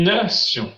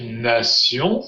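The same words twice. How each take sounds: First: "Nation" stressed on TION; stress on last syllable. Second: "Nation" stressed on NA; stress on first syllable. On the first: Teacher imitating the second metro announcement, final-syllable stress on "Nation". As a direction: metro announcement "Nation", accent at word end. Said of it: "seconde fois elle mettra en fin de mot". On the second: Teacher imitating the metro announcer, first-syllable stress on "Nation". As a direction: metro announcement "Nation", accent at word start. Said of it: "première fois elle met l'accent". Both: Retold or imitated.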